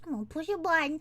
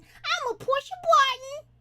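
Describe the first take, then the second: First: Said in the usual way. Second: High, pitched-up silly voice; mock voice-changer squeak; put-on high voice. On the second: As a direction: push it up high, rising at the end. Mimics a pitched-up button voice.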